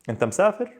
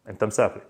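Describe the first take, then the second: First: The voice rises at the end like a question. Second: The voice falls at the end like a statement. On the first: It asks whether the man is traveling. "If I want to ask, I would say" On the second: It states that the man is traveling. "We know for a fact you're traveling"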